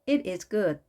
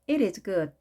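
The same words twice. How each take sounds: No difference in how they are said.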